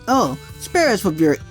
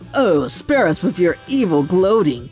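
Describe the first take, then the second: First: It is said in a normal voice. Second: It is said in a heroic voice.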